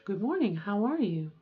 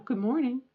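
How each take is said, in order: First: Good morning settled a little lower; lower-range greeting. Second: Good morning in the upper practice range; light greeting, a little raised in pitch; higher-range greeting. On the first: Showing a compromise voice for daughter, slightly lowered range. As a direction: ease the greeting down into a softer range. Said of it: "a little bit more in this range". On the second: Trying out a morning greeting for daughter, slightly raised voice. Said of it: "Or a little bit more in this range". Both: Shown as a demonstration.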